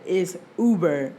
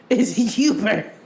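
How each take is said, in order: First: It's Uber with Uber said yoo-ber, slow and firm; firm correction of Uber; correct pronunciation. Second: It's Uber with Uber stretched oo-ber, slow and loud; stubborn grandma's Uber; grandma's pronunciation. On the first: Shown as a demonstration. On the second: Retold or imitated. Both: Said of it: "My grandma say Uber".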